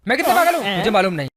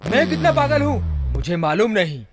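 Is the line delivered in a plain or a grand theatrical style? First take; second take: plain; theatrical. First: It is said in a plain, ordinary manner. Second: It is said in a grand, mythological-drama manner. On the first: "ऐसे नहीं" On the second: "पौराणिक style में"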